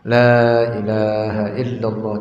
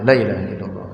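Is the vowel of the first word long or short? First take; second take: long; short. First: The vowel of the first word is held long. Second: The vowel of the first word is cut short. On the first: It denies godhood to all but Allah. The speaker calls it right. "harus dibaca dengan benar" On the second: It affirms godhood for other than Allah. The speaker calls it wrong.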